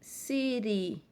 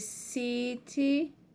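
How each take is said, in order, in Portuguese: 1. A consoante do meio é uma batida rápida, parecida com r. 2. A consoante do meio é um som de t claro.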